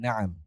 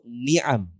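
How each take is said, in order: First: The first vowel is a. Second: The first vowel is i. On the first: The speaker calls it right. "Tapi yang betul min humurin na'am" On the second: The speaker calls it wrong. "Macam-macam orang bacanya"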